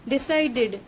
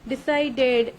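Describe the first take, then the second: Both takes have the same delivery.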